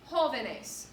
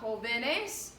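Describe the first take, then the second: First: Jóvenes said as JÓ-ve-nes; jóvenes stressed on JÓ, falling after; stress on first syllable. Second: Jóvenes misstressed off the first syllable, as jo-VE-nes; jóvenes with the stress off JÓ and a rising end; wrong stress. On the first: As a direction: hit the opening syllable of jóvenes. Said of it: "tells you where the stress is". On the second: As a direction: slowly move the weight later in jóvenes. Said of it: "not jóvenes". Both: Shown as a demonstration.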